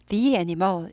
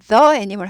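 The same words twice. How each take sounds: First: The word 'the' is said as 'thee'. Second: The word 'the' is said as 'thuh'. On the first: The speaker calls it right. "이렇게 되죠" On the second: The speaker calls it wrong. "하지 않고"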